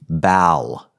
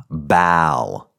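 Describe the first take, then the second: First: The vowel is a front 'a' sound. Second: The same.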